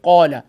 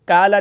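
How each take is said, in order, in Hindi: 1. लंबा 'a' स्वर भरा हुआ और भारी है। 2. लंबा 'a' स्वर पतला और हल्का है। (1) "बल्कि कौला" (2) "उसको काला नहीं पढ़ेंगे"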